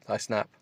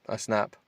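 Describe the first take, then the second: No difference in how they are said.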